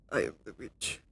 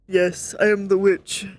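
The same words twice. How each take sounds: First: Much lower and far softer, almost under the breath; quiet low aside; low hushed witch line. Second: Said in the usual way. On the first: Shown as a demonstration. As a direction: drop it low and hush it like a lurking witch. Repeats witch line two ways.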